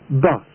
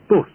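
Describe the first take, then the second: First: It is said with a southern English vowel. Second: It is said with a Manchester English vowel. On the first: "as spoken in the south" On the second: "are pronounced in Manchester and many other parts as"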